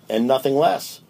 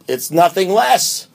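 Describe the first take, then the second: First: Said in the usual way. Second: Slow, higher, with weight on "nothing less"; stress on less. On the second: Shown as a demonstration. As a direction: lean into "nothing less", drawn out. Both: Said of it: "which I think means".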